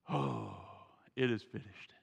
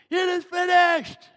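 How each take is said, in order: First: It is said softly and calmly. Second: It is said loudly as a victorious shout.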